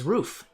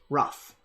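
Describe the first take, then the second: First: The vowel is long, like in 'food'. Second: The vowel is short, like in 'stuff'. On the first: This is the original German way. "The original German is" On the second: This is the usual American way. "the correct American pronunciation"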